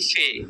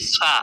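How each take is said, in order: First: The letter name ends in an 'e' vowel. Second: The letter name ends in an 'a' vowel. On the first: This is the Urdu name of the letter. "এখানে পড়তেছি ফে" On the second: This is the Arabic name of the letter. "আরবিতে পড়ছি ফা"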